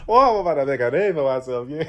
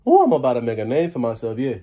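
First: Cajun line broken by real laughter; laughing through it. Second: Put-on proud Cajun accent, steady and pleased. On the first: Real, not acted. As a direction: try to repeat it but crack up. Repeats line, cracking up. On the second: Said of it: "They're making fun of my accent".

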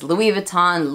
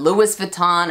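First: "Louis Vuitton" as LOO-ee vuh-TAHN; Americanized "Louis Vuitton", Louis ending in EE; silent final S. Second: "Louis Vuitton" as LOO-iss vuh-TAHN; mispronounced "Louis Vuitton", Louis like Lewis; sounded final S. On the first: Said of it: "Everyone else says". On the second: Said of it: "or whatever it is". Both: Retold or imitated.

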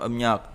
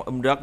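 First: Âm nhật said with ny after the m; correct assimilated reading. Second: Âm rất said with r after the m; wrong unassimilated reading. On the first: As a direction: turn r to n in âm nhật. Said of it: "đọc là âm nhật". (đọc âm nhật, r biến thành "nh") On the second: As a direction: keep the r in âm rất. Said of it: "âm nhất chứ không âm rất nữa". (đọc âm rất giữ nguyên âm r) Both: Shown as a demonstration.

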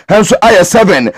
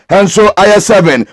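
No difference in how they are said.

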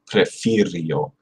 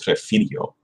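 First: Prefirió slowed right down, each syllable distinct; corrected pronunciation. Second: Prefirió said quickly as a slip; mistaken pronunciation. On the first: Learner correcting their own slip, Prefirió slow and careful. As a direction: say Prefirió slowly and carefully, falling at the end. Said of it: "That's not good". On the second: Learner showing the slip they almost made, Prefirió mispronounced. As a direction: toss off Prefirió carelessly, sounds run together. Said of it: "I almost said it". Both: Shown as a demonstration.

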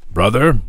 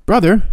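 First: Lightly raised doctor's call; a hint of the doctor. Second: Put-on high, wheedling boyish call; boy's voice. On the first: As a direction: address the brother kindly but firmly. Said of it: "he said to the infirmarian". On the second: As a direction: sing out to the brother like a hungry kid. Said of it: "he would say". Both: A narrator's reading.

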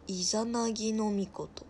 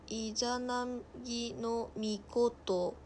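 First: Said in the usual way. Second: イザナギのミコト drawn out slowly, syllable by syllable; sounding out a name. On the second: Real, not acted. Streamer reading an unfamiliar god's name, slowly sounding out イザナギのミコト. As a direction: read イザナギのミコト haltingly, piece by piece.

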